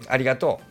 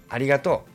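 Both takes have the same delivery.

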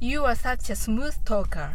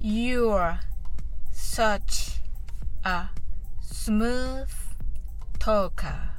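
First: It is said fast. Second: It is said slowly.

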